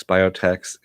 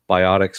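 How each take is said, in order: First: "biotechs" with a long o, ending like "techs"; biotechs pronunciation. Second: "biotics" with "ot" in the middle, ending in "iks"; biotics pronunciation. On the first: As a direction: say "biotechs" as bio-teks. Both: Shown as a demonstration. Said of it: "kind of similar spelling".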